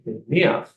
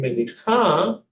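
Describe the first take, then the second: First: The word ends with a then the ch sound. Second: The word ends with the ch sound then a. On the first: The speaker calls it right. "say meniach" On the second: The speaker calls it wrong. "instead of saying menicha"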